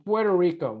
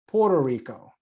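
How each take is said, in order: First: The first word is said as Puerto. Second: The first word is said as Porto. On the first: The speaker calls it right. "or Puerto Rico" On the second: The speaker calls it wrong. "not Puerto Rico"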